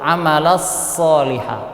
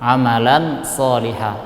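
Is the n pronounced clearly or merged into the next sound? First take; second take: merged; clear. First: The n merges into a doubled following s. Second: The n is clear, with no nasal hum. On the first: "kita tasydidkan, kita masukkan kepada huruf setelahnya" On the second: "dibaca jelas tanpa dengung"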